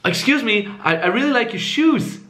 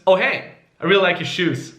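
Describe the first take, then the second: First: High, hesitant, rising on SHOES; needy, value-taking. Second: Casual, falling at SHOES; offhand compliment, no question in it; value-giving tone. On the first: Exaggerated approach to a stranger, needy and high. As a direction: seek approval with a stammered upward lilt. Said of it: "make it a little bit more extreme". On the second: Showing a confident approach to a stranger, casual falling tune. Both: Shown as a demonstration.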